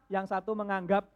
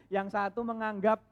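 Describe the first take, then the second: No difference in how they are said.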